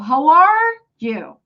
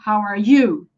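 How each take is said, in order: First: The word 'are' carries the strongest stress. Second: The word 'are' does not carry the strongest stress. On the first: This is the more common everyday way to ask. "the strongest part of the sentence uh, is in the R. So how are you?" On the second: This is a less common way to ask. "Not how are you?"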